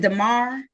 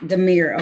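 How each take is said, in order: First: Demar with an "ar" ending, like "car"; mistaken name pronunciation. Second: Demir with an "eer" ending, like "near"; corrected name pronunciation. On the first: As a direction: say Demar as duh-MAR. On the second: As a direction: say Demir as duh-MEER. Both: Real, not acted. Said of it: "how you pronounce your first name".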